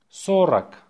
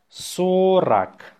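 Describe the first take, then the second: First: Brisk dictation repeat; faster. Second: Slow, stretched-out dictation. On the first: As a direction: say the word short and quick. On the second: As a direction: draw the word out for learners. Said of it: "say it slowly". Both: Shown as a demonstration.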